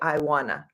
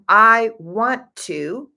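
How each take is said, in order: First: The words are squished together into one. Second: Each word is said fully and separately.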